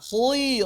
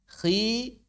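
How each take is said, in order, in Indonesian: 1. Konsonannya sengaja ditebalkan, jadi tebal. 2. Konsonannya agak tebal, tidak ditipiskan dan tidak ditebalkan. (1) "Jangan juga sengaja ditambah ketebalan" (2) "Ya mirip dengan huruf-huruf tarqiq. Cuma memang enggak seratus persen sama"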